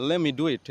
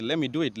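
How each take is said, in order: No difference in how they are said.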